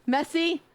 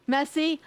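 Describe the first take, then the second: No difference in how they are said.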